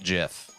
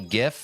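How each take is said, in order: First: It begins with a soft J sound. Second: It begins with a hard G sound. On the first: The speaker calls it wrong. "not GIF" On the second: The speaker calls it right. "it's definitely GIF"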